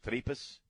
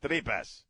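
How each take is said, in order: First: "Tripas?" with an English r and a questioning rise; unsure pronunciation. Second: "Tripas." copied after Chris, the Spanish way with a falling end; repeating the correction. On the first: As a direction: tries "Tripas?" the gringo way, unsure. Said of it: "How do you say it, Chris?". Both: Shown as a demonstration.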